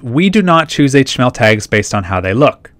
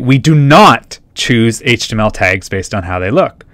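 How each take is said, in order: First: The sentence is read plainly without special emphasis. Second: The words 'do not' are strongly emphasized.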